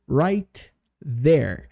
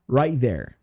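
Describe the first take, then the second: First: The T of right is clearly pronounced. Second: The T of right is dropped and linked. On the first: The speaker calls it wrong. "eu não falo right there. Isso é muito demorado" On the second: The speaker calls it right. "a gente está falando acelerado. Então a gente fala right there"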